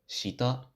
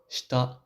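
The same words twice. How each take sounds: First: The i vowel is fully voiced and audible. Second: The i vowel is devoiced, nearly silent. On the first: The speaker calls it wrong. "rather than shita" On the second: The speaker calls it right. "or shita"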